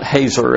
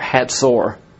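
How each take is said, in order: First: The middle consonant is a plain z sound. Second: The middle consonant is a ts sound. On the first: The speaker calls it wrong. "it's not Hazor as it looks like" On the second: The speaker calls it right. "pronounced like H-A-T-Z-O-R"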